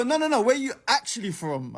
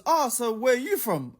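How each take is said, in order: First: Higher mock question leaning on "actually"; insistent, stress on ACTUALLY. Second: Higher, lightly put-on casual enquiry; mock nosy stranger. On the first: Storyteller imitating stranger rejecting his answer, insistent weight on "actually". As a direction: press the point on "actually", imitating a pushy stranger. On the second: Storyteller imitating a stranger opening conversation, mock casual question. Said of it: "one of them goes".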